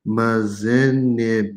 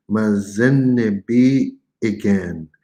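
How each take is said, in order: First: Mazenebi slow, with a short catch between the vowels; glottal stop demo. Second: Mazenebi again slow, a clear brief stop between vowels; glottal stop demo. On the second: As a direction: let the pause in Mazenebi be heard. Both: Shown as a demonstration. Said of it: "It's like a momentary pause".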